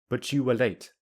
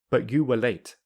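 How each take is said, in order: First: The t and y merge into ch. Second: The t is replaced by a glottal stop. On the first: "I will use linking" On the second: "I will say them with the glottal plosive"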